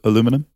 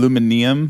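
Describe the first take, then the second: First: The word is said in its shorter form. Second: The word is said in its longer form. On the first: This is how the speaker's own group says it. "As opposed to aluminum" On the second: This is how the other group says it. "the way you say it, it feels like more work"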